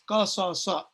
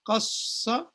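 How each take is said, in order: First: It has three syllables with two separate s sounds. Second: It has two syllables with one long s sound. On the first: "originally that verb is qasasa" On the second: "they get merged, and a shadda represents that merging"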